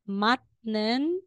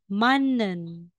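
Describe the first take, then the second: First: The first syllable ends in a t sound. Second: The first syllable ends in an n sound. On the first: The speaker calls it wrong. "instead na sasabihin mong matnen" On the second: The speaker calls it right. "magiging mannen"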